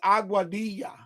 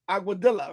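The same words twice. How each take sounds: First: It is said with a Spanish-sounding accent. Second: It is said with an English-sounding accent. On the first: The speaker calls it right. "the proper way to saying it is aguadilla" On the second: The speaker calls it wrong. "if you don't say it with the Spanish, it's like quesadilla"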